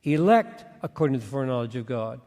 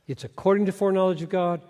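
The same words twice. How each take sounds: First: "Elect" punched first, the rest said quicker; stress on elect. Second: "according" punched at the start of the phrase; stress on according. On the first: Preacher showing how everybody reads the verse, stress on "Elect". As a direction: hit "Elect" and tie the phrase to it. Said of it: "everybody connects it to election". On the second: Preacher showing the congregation the preposition, stress on "according". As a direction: lean on "according" and keep the rest quicker. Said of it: "Three prepositional phrases modifying what?". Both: Shown as a demonstration.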